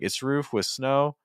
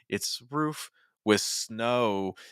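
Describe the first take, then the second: First: The phrase repeats the same rising pitch pattern. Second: The phrase drops to a lower, different pitch. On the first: The speaker calls it wrong. "that starts getting into it's it sounds too similar" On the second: The speaker calls it right. "We're at a lower pitch"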